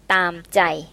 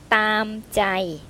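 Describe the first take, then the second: First: The phrase is said with stronger force. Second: The phrase is said in a plain, even way.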